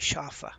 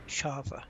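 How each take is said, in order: First: It is said with a German pronunciation. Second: It is said with an English pronunciation.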